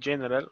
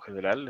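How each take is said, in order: First: The word is pronounced the English way. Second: The word is pronounced the Spanish way.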